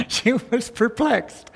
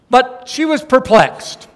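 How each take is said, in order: First: Softer, slow, relishing the word perplexed; hushed delight in the phrase; savoring. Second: Said in the usual way. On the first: Shown as a demonstration. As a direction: linger lovingly over perplexed. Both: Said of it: "I love that".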